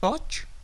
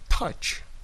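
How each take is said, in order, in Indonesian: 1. Bunyi t punya hembusan udara yang lemah. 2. Bunyi t punya hembusan udara yang kuat. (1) "bukan touch" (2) "T itu plosive, meledak"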